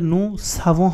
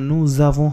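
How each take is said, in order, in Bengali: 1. শব্দ দুটি s ধ্বনি দিয়ে যুক্ত হয়। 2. শব্দ দুটি z ধ্বনি দিয়ে যুক্ত হয়।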